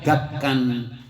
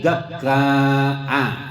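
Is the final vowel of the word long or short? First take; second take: short; long. First: The ending is short, with a final n. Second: The ending is long, with no final n. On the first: "maksuron, yaitu dipendekkan, tidak ada hamzanya, munawwanan ditanwin" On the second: "mamdudan dibaca panjang, ghairu munawwanin tidak ditanwin"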